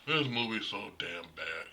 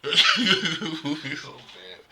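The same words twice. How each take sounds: First: Said in the usual way. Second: Drawn out, laughing and loud. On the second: Real, not acted. Vlogger mocking a sequel he hates, laughing loudly. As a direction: laugh it out, stretching every word.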